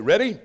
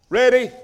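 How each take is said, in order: First: Said in the usual way. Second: Louder rallying call to the congregation. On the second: Shown as a demonstration. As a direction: lift it up to rouse them.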